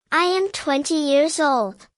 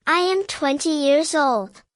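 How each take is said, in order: Both takes have the same delivery.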